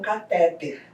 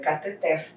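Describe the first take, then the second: First: The stress is on the second syllable. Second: The stress is on the last syllable. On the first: The speaker calls it wrong. "É errado" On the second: The speaker calls it right. "é cateter. Não tem acento também"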